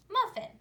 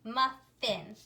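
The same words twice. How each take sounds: First: Said in the usual way. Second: "muffin" split slowly into muf and fin; teacher's segmented "muffin", a small gap mid-word; syllable by syllable. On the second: Shown as a demonstration. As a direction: say "muffin" in two separate, even syllables. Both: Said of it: "So let's read it".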